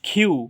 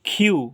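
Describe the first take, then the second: Both takes have the same delivery.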